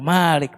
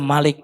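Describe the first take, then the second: First: The first vowel is held long. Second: The first vowel is kept short. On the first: It means owner. "Panjang, Malik pemilik" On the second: It means king or ruler. "dia penguasa dan raja"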